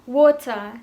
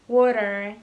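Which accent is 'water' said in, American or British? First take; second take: British; American. First: The T is a crisp, clear T sound. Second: The T is softened to a D-like sound. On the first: "Orang-orang Inggris akan mengatakan water" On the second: "orang-orang American bakal mengatakan water yang T-nya itu berbunyi D"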